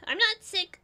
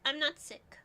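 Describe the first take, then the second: First: Higher, louder protest on not; insistent denial. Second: Said in the usual way. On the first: Real, not acted. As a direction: push back hard on not. Denying being sick.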